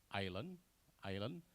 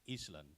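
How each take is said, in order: First: Island said with the s left silent. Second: Island with the s sounded, is-land; students' mispronunciation. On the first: Shown as a demonstration. Presenter gives example of silent letters, silent s. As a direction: say island as eye-land, no s sound. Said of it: "What I mean by silent letters". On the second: Retold or imitated. Presenter imitates Indonesian students' error, sounded s. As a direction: say Island as it is spelled, s voiced out. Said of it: "they pronounce, uh, island into".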